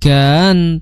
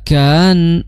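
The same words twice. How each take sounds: No difference in how they are said.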